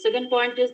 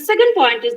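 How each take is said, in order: First: The voice is flat with no pitch variation. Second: The voice is varied and lively in pitch. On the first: The speaker calls it wrong. "not like that ... where is your voice modulation?" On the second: The speaker calls it right. "it should be in this way"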